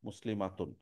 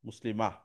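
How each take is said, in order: First: The word ends with the full -atun ending. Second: The word stops short, ending in -ah.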